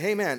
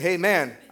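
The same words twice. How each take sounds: First: It is said at a normal, quieter volume. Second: It is said with a louder, raised voice.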